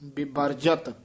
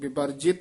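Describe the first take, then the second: First: The last syllable is said as 'jat'. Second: The last syllable is said as 'jit'. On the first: The speaker calls it right. "ਜੱਜੇ ਦੇ ਸਿਹਾਰੀ ਨੇ ਲਾ ਦੇਣੀ" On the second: The speaker calls it wrong. "ਵਿਵਰਜਿਤ ਨਹੀਂ ਕਹਿਣਾ"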